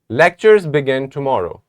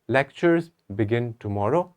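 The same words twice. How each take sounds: First: It is said as a flat, finished statement. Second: It sounds hesitant, doubtful and confused. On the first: It states a plain fact. "let us say it like a statement" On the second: The speaker is not sure it is true. "if I say it with a doubt, with confusion"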